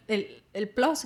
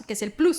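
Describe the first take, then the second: First: "plus" said the English way, vowel like "plos"; English-sounding "plus"; English pronunciation. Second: "plus" said the Spanish way, with an oo vowel; Spanish-sounding "plus", clear u; Spanish pronunciation. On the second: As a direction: say "plus" as "ploos". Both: Shown as a demonstration. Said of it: "Para nosotros en español es plus".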